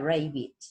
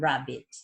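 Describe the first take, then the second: First: The first vowel sounds like a long 'ei'. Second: The first vowel sounds like a short 'a'. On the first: The word is spelled with a single consonant. The speaker calls it wrong. "si yo escribiese rabbit con una sola B larga, sería rabbit" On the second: The word is spelled with a double consonant. The speaker calls it right. "para que la A sea A y no EI"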